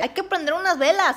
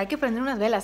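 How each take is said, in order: First: It is said in an exaggerated put-on voice. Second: It is said in a natural, ordinary voice. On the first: It mocks how someone else talks. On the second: It reports what someone else said.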